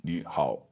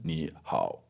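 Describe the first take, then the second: Both takes have the same delivery.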